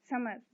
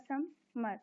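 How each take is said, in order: First: Said in the usual way. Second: "समर" as two separate beats; split into syllables. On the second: Shown as a demonstration. Teacher dividing words for the class, "समर" broken in two. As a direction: pause between सम and मर in "समर". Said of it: "इनको syllables में divide करना है".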